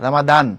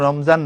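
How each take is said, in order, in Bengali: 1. মাঝের ব্যঞ্জনটি d ধ্বনি। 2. মাঝের ব্যঞ্জনটি z ধ্বনি। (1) "আরবিক যে প্রনাউন্সিয়েশন হচ্ছে রামাদান" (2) "এটা আরবি উচ্চারণ রমজান না"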